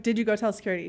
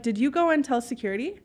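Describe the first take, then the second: First: Put-on accent dropped, no-nonsense question; retold serious challenge, kept level; all-business voice. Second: Polite question with a light lift at the end; friendly, unthreatening question; nice voice. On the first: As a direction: confront them, strictly business. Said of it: "Accent's gone and everything at that point". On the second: Retold or imitated. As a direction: ask it nicely, tone rising. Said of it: "saying in a nice voice".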